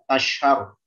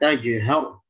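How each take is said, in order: First: The middle consonant is blurred toward sh. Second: The middle consonant is a clear j sound. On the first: The speaker calls it wrong. "nyampur c, nyampur shin" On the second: The speaker calls it right. "jimnya jelaskan"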